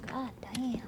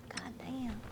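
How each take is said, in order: First: Said in the usual way. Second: GOD DAMN trailing into a whisper; whispered curse. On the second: Real, not acted. Same curse repeated under the breath.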